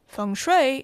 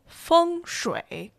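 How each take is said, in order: First: It is said English-style without Mandarin tones. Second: It is said with Mandarin tones on each syllable.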